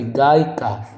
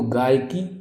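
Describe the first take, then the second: First: गायिका ending in "kaa"; correct form shown. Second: गायकी ending in "kee"; two beats, long final i in गायकी; wrong form shown. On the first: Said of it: "वो सही है". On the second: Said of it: "गायकी नहीं होगी". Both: Shown as a demonstration.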